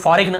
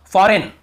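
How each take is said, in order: First: "फॉरेन" with a hard G, as fo-reg-nuh; common mispronunciation. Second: "फॉरेन" said as for-en, G silent; correct pronunciation. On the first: Retold or imitated. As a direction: sound the G before n in "फॉरेन". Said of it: "बहुत से लोग फॉरेन ऐसे पढ़ते हैं". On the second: Shown as a demonstration. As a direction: say "फॉरेन" clearly with no g sound. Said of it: "फॉरेन पढ़ने".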